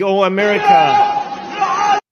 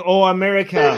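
First: Slow, stretched imitation of a man calling out; drawn-out call. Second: A lightly voiced plea called out; retold call. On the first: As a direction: drag the plea out like a rooftop cry. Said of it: "shouting in Gaza". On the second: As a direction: quote the rooftop plea without much force. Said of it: "a man on a rooftop shouting".

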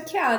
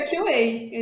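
First: "Q A" said the Brazilian way, "quê-á"; "Q A" in Portuguese letters, ke a; Brazilian pronunciation. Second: "Q A" said the English way, "kiu-ei"; "Q A" spelled as English letters, kiu wei; English pronunciation. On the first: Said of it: "O abrasileirado mesmo é". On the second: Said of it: "o correto é". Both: Shown as a demonstration.

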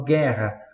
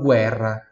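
First: Guerra as "GHEH-ha", silent U; Portuguese pronunciation. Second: Guerra as "GWEH-rra", U sounded; Italian pronunciation. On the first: Teacher contrasts languages, guerra in Portuguese without the U. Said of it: "em português eu falo guerra". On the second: Teacher contrasts languages, guerra in Italian with audible U. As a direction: say guerra with a "gw" and trilled R. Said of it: "Em italiano eu falo guerra". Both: Shown as a demonstration.

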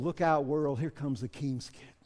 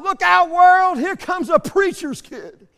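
First: Low, soft sincere declaration; hushed, sincere promise; quiet confidence. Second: High, loud holler, slowing at the end with a laugh; loud, gleeful shout; kid hollering. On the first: Shown as a demonstration. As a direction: say it softly, with quiet assurance. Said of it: "we can honestly say to the world". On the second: Retold or imitated. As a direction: yell it out like a proud little boy. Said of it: "he hollered out".

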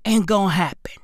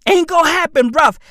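First: A low taunting whisper. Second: Louder, punchy repeat; loud taunt. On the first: Taunting the IMF in a whisper. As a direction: hush it like a threat. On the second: Taunting the IMF out loud. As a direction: shove it back at them. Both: Acted.

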